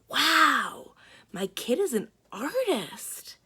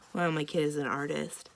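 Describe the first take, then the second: First: It is read in a lively, expressive voice. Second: It is read in a flat, dull voice. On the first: The speaker calls it right. "that's the way that that line should be said" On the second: The speaker calls it wrong. "it doesn't sound very interesting"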